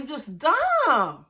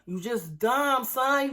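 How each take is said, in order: First: You just dumb, dragged slowly with weight on dumb; slow scolding. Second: Said in the usual way. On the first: Real, not acted. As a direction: lean hard and slow on dumb. Scolding a cast member.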